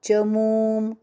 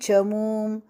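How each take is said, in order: The two takes are said the same way.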